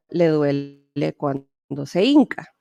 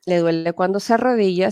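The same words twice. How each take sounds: First: "hinca" said slowly with a falling close; Mexican wording. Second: Plain "¿le duele cuando se arrodilla?" with "arrodilla" said clearly; the word she no longer uses, said matter-of-fact; old Peruvian wording. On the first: Interpreter teaching students the local term, slow and deliberate. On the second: Interpreter showing students the term she dropped, said plainly. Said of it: "Ya no pregunto". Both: Shown as a demonstration.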